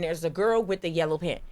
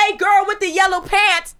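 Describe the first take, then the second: First: Said in the usual way. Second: Loud, high call across the street; mock street catcall, raised voice; pretend catcall. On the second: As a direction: holler it to get her attention. Demonstrating a catcall at a girl.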